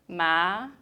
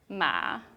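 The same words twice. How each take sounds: First: The pitch rises from middle to high. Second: The pitch dips low, then rises.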